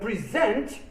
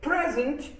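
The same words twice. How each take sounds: First: The stress is on the last syllable. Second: The stress is on the first syllable. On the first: It means to give something to someone. "is a verb" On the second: It is a gift. "as a noun means a gift"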